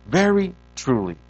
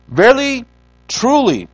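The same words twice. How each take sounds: First: Said in the usual way. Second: VERILY and TRULY loud, high, set apart; strong emphasis. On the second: Acted. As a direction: proclaim each word separately, loud and raised. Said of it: "there is a strong emphasis".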